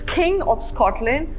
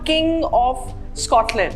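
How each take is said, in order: First: The k has a strong puff of air. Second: The k has no puff of air. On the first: The speaker calls it right. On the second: The speaker calls it wrong. "It's not"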